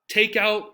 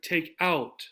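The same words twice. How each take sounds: First: The stress is on take. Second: The stress is on out.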